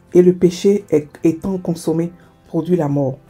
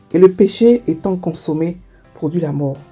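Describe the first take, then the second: The two takes are said the same way.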